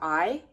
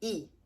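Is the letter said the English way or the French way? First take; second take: English; French. First: The letter is named with an English pronunciation. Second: The letter is named with a French pronunciation. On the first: "the letter I in English" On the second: "is said I in French"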